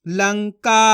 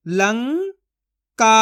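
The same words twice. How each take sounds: First: Said in the usual way. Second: Lanka split as "लं", long pause, "का"; syllable by syllable. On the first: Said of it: "तो मिलके बन जाएगा". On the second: Shown as a demonstration. Teacher sounds out Lanka for learners, syllable by syllable. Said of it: "एक एक अक्षर का उच्चारण करके".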